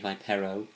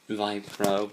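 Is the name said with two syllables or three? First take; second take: three; two. First: The name is said with three syllables. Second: The name is said with two syllables. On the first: The speaker calls it right. "it's actually Vipero" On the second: The speaker calls it wrong. "I said that his name was Vipro, but it's wrong"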